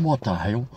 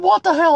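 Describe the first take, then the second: First: Low disgusted aside. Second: Higher, an incredulous outburst; exasperated exclamation. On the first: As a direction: lower and much softer, a deadpan disbelieving aside. Inner thought after losing lottery. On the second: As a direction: pitch it up as if you can't believe it. Inner thought after being hung up on. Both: Retold or imitated.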